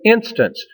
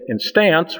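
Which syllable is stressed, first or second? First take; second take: first; second. First: The stress is on the first syllable. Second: The stress is on the second syllable. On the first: The speaker calls it right. "we put the stress on the first syllable" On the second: The speaker calls it wrong. "We don't say instance"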